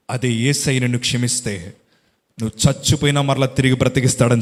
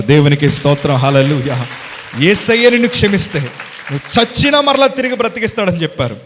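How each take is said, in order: First: Said in the usual way. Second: Loud, high preacher's proclamation; shouted praise. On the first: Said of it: "సవాలు విసిరిన మాట". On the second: Acted. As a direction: hammer the promise home with praise. (బిగ్గరగా ప్రసంగ ధ్వనితో ప్రకటన)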